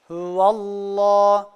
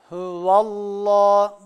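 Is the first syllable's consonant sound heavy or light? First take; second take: heavy; heavy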